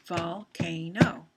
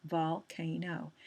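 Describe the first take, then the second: First: Volcano said slowly and loudly, each syllable apart; syllables spelled out. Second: Volcano said slowly, vol-ca-no spaced out; syllables shown. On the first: Teacher to class showing syllables, slow and loud. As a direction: stretch Volcano into its three parts. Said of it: "divided it into three different syllables". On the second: Teacher to class repeating the word, slow. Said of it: "it says it's a long sound". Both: Shown as a demonstration.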